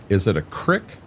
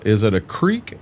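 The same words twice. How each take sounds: First: "crick" with a short i, like "brick". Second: "creek" with a long ee, like "reek". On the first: Asking chat about local words, saying "crick" with short i. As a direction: say "crick" to rhyme with "stick". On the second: Asking chat about local words, saying "creek" with long ee. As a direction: say "creek" to rhyme with "seek". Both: Shown as a demonstration. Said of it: "so is it a".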